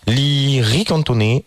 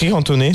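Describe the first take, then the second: First: It is said in an exaggerated put-on accent. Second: It is said plainly in a normal accent. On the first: The speaker calls it wrong. "je l'ai dit un peu en façon. C'était raciste" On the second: The speaker calls it right. "tout court"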